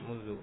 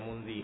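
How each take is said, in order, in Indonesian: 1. Kata ini diakhiri vokal u. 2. Kata ini diakhiri vokal i.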